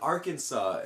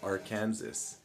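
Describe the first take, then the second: First: It ends with a 'saw' sound. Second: It ends like the word 'Kansas'. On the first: The speaker calls it right. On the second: The speaker calls it wrong.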